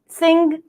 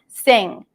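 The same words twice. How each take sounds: First: It ends with an audible hard G. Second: It ends in an NG sound with no G. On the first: "if you do pronounce the G" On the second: "it's just an, uh, an N G sound"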